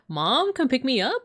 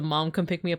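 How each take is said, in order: First: The pitch rises at the end. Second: The pitch stays level at the end.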